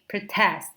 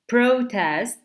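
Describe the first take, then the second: First: The stress is on the second syllable. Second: The stress is on the first syllable.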